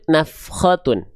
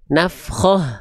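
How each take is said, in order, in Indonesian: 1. Kata ini berakhir dengan bunyi t ditambah un. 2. Kata ini berakhir dengan bunyi h yang lembut. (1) "kalau lanjut" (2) "Kalau berhenti"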